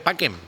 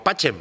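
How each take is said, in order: First: The middle consonant is a k sound. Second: The middle consonant is a ch sound. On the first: The speaker calls it right. "pues se dice paquem" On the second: The speaker calls it wrong. "lo de que decimos pachem"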